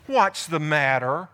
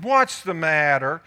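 First: Slow, coaxing wife. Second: Drawn-out, lower wifely question; slow mock-sympathetic what's the matter; slow, coaxing wife. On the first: Retold or imitated. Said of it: "Look at how she speaks to him". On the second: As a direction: coax him slowly like a concerned wife. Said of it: "That's what Jezebel said".

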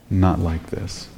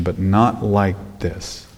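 First: "Not" hushed and much softer; a soft echo with weight on "Not"; stress on not. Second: NOT slow and low, hushed; stress on not. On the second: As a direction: lean on "not" softly and slowly. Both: Shown as a demonstration.

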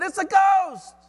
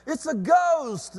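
First: High, loud shout of terror; full-voiced, high-pitched panic; fearful cry. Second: Higher, drawn-out cry of alarm; acted fright, slow and raised in pitch; terrified exclamation. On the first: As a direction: cry out in acted fright. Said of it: "they cried out in fear". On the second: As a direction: exclaim it in mock terror. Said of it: "They were terrified and said".

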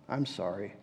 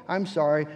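First: Barely audible, swallowed "I'm sorry."; mumbled apology. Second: "I'm sorry." said clearly but without remorse; a tidy, correct "I'm sorry." with no feeling behind it; well-spoken apology. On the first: A child caught in wrongdoing mumbles a grudging apology. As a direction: mutter "I'm sorry." low and almost inaudibly. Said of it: "with a mumbled apology". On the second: A child gives a polite apology with no remorse. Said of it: "a well-spoken". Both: Shown as a demonstration.

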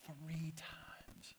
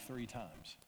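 First: Drawn-out, voiceless whisper; hushed emphasis. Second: Said in the usual way. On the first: Retold or imitated. Jesus foretells the denial to Peter, whispered. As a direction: whisper it slowly for weight. Repeats the prediction for effect.

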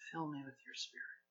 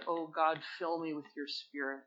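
First: Much softer, quicker, almost breathed; softer repeated plea; hushed prayer. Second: Soft, earnest prayer; quiet plea to God. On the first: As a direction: let the prayer drop to a hush. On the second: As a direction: pray it low and sincere. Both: Shown as a demonstration. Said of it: "Would you just say that with me?".

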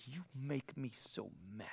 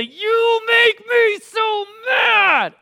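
First: Very quiet, low mock grievance; hushed, understated imitation of an angry adult; imitated fifty-five-year-old. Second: High, slow, full-volume mock tantrum shout; drawn-out screamed tantrum, imitating a small child; child's temper tantrum. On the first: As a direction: say it softly and low, as a grown adult's complaint. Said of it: "I've counseled fifty-five-year-olds". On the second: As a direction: yell it like a furious five-year-old, dragging every word. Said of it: "temper tantrum".

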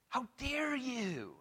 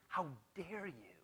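First: Slow, hushed indignant rebuke. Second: Hushed, slow indignant rebuke; quiet outrage aimed at the disciples. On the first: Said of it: "he was indignant". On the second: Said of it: "He was indignant". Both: Retold or imitated.

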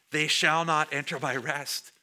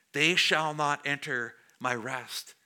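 First: Verse restated firmly, driving through "They shall not enter my rest"; emphatic repetition. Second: Slow, measured scripture reading; slow verse reading. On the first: Shown as a demonstration. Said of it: "Again, for emphasis". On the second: A narrator's reading. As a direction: read the verse slowly and deliberately. First reading of quoted verse.

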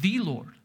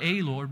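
First: "the" said as a full THEE; stress on "the". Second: "a" said as a full long AY; stress on "a". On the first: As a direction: set "the" apart, pronounced thee. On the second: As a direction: lean on "a" as the wrong word. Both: Shown as a demonstration. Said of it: "just emphasize each word in this verse".

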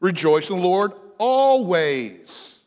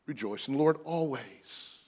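First: Slow, ringing Rejoice in the Lord always; emphatic proclamation. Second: Softer, reflective Rejoice in the Lord always; quiet repeat. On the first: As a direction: proclaim always with full weight. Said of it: "Notice whatever it is". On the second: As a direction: say it again gently and softer. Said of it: "not a condition upon circumstance again". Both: Shown as a demonstration.

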